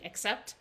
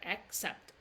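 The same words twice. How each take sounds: First: It is said smoothly at normal speaking speed. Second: It is said slowly, with a stop between syllables. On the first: "no one is saying it that slow when they're talking. They're saying accept" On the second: "You can even see I stop there"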